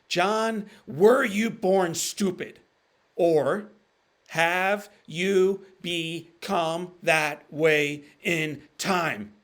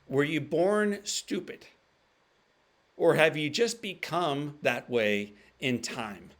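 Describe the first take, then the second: First: It is said slowly and deliberately. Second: It is said at normal speed.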